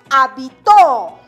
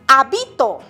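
First: The stress is on the last syllable. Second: The stress is on the first syllable. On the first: "La mayor fuerza de voz recae en la última sílaba" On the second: "Está la mayor fuerza de voz en la antepenúltima sílaba"

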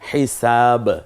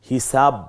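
First: The final b bursts out with a bounce. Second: The final b is held closed without release. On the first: The speaker calls it right. "এই যে বেরিয়ে পড়লো হিসাব" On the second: The speaker calls it wrong. "এভাবে না"

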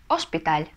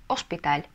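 No difference in how they are said.

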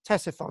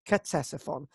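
First: The word starts without a C sound. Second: The word starts with a C sound. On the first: The speaker calls it right. "You drop the C, and it's Ctesiphon" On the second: The speaker calls it wrong. "not Ctesiphon, as I've said in the past"

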